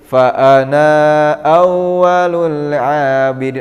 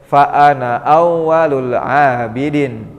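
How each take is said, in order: First: The vowel after the n is drawn out long. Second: The vowel after the n is kept short. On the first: The speaker calls it wrong. "atau menjadi mad jaiz" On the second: The speaker calls it right. "Jadi dibacanya pendek"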